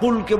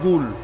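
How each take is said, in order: First: The word begins with a q sound. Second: The word begins with a g sound.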